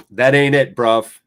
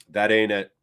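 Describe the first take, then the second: First: Louder, scolding the player; scolding a player who yells at the ref. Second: Said in the usual way. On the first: Real, not acted. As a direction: tell him off loudly.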